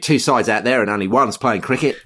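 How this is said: The Australian accent is strong and convincing. The speaker calls it right. "Much better"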